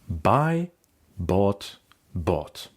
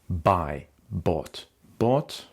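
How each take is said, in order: First: The words are read at a slower pace. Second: The words are read at a faster pace.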